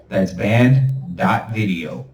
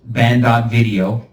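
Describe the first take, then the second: First: Slow emphatic url. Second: Said in the usual way. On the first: Shown as a demonstration. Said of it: "repeats url". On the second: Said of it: "url read".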